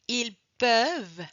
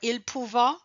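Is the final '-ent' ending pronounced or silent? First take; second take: silent; pronounced. First: The final ending is silent. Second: The final ending is pronounced aloud. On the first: This is the standard way of saying it. The speaker calls it right. "No, ils peuvent" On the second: This is a regional Acadian way of saying it. The speaker calls it wrong. "You gotta hear probably some Acadians say ils peuvent or ils pouvant"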